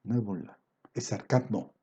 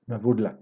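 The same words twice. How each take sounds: First: Softer, lower echo of the phrase; hushed second take; quiet repeat. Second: Said in the usual way. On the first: Real, not acted. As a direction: drop the voice almost to an aside. Preacher repeats the phrase, then drops his voice.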